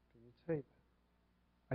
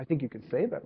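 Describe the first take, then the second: First: Softly and slowly, almost to yourself; quiet, slow question. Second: Said in the usual way. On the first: Shown as a demonstration. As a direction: drop the voice and slow right down on "say".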